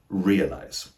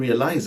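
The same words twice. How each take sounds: First: The stress is on the first syllable. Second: The stress is on the last syllable. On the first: The speaker calls it right. "the primary stress is on the first syllable, not the last" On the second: The speaker calls it wrong. "place the stress on the last syllable"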